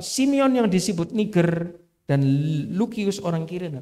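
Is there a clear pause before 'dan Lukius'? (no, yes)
yes. A pause separates the two names as two units. Two different people are being listed. "kalau dibacakan dua orang"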